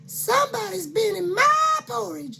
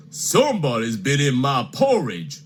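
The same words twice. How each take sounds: First: High fluting mama bear. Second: Lightly voiced big papa bear, a touch gruff; a hint of a grumbling father bear. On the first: Acted. Mama Bear protesting to her family, high and fluting. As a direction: squeal it up high like a fussy mother. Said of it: "said Mama Bear". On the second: Papa Bear complaining to his family, lightly voiced. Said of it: "said Papa Bear".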